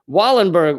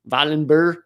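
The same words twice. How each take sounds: First: The name is said with an American pronunciation. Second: The name is said with a Swedish pronunciation. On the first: "I'm going to do the Americanized version again" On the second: "I know from someone Swedish that it's like"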